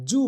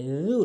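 First: জু with a plain Bengali j; the mistaken জু; wrong ju. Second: জু as Arabic dhal; tongue-tip dh sound; correct dhal. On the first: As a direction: common mispronunciation. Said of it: "এই এখানে আমরা ভুল করি". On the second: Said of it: "জিহ্বার আগা দাঁতের আগার সঙ্গে মিলাতে হবে". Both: Shown as a demonstration.

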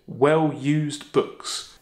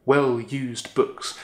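First: "well-used books" with every syllable slow and equal in weight; even stress. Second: "Well-used books" slow, each syllable hit evenly; equal weight. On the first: Teacher slowly showing a class the poem's even beats. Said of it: "last three syllables have almost equal weight". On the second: Teacher showing the class how the line slows down. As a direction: lean on "Well-used books" like three drumbeats. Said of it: "have almost equal weight and emphasis". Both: Shown as a demonstration.

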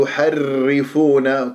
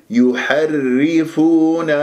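First: يحرفون with the راء trilled too much; wrong rolled raa. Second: يحرفون slow, with a light راء and no rolling; tajweed model; correct recitation. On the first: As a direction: roll the راء in يحرفون, shown as a mistake. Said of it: "تكرير خطأ". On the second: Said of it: "هكذا". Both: Shown as a demonstration.

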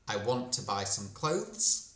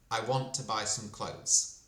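First: "clothes" with th before the z, rising end; careful CLOTHES. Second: "clothes" without th, just cloze, falling end; CLOTHES as CLOSE. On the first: Teacher comparing two sentences, "clothes" with its th, rising. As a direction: keep the th in "clothes", lift the end. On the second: Teacher comparing two sentences, "clothes" as cloze, falling. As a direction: drop the th in "clothes", let it fall. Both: Shown as a demonstration. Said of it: "якщо ми порівняємо ці два речення".

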